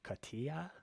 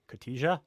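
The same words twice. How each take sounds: First: The J is not pronounced as a hard J. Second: The J is pronounced as a hard J sound. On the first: The speaker calls it right. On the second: The speaker calls it wrong.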